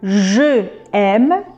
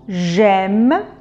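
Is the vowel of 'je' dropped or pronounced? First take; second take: pronounced; dropped. First: The vowel of je is pronounced separately. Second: The vowel of je is dropped and joined. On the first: The speaker calls it wrong. "Au lieu de dire je aime" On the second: The speaker calls it right. "on va enlever le e de je"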